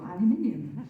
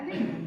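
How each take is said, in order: First: The word has five syllables, ending in -ium. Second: The word has four syllables, ending in -num. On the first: This is the later British form. "So we changed and put the I in" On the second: This is the original British form, now seen as American. "because it followed the pattern of platinum"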